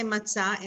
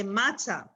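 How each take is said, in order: First: MatZAH with the weight on ZAH; matzah, final syllable stressed; stress on last syllable. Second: MATzah with the stress up front; common mispronunciation. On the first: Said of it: "we say matzah". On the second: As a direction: say matzah stressed on the first syllable. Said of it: "some people say matzah". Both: Shown as a demonstration.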